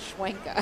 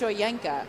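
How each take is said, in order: First: The name starts with a 'shwen' sound. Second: The name starts with a 'shoy' sound. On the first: The speaker calls it wrong. "I think I was saying Schwenka" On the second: The speaker calls it right. "I think she says it's Shoyenka"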